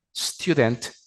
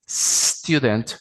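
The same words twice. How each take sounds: First: "student" said the mispronounced way the teacher corrects; the wrong version of "student" before the correction; "student" as the learner's error; wrong take. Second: "student" said the right way after the wrong take; the corrected "student", clearly pronounced. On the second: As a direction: model "student" as the teacher fixes it. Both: Shown as a demonstration. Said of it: "no es student".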